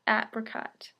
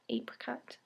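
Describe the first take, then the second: First: The first vowel is short, as in 'cat'. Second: The first vowel is long, as in 'cake'. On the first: The speaker calls it right. "Ap, apricot" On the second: The speaker calls it wrong. "not apricot"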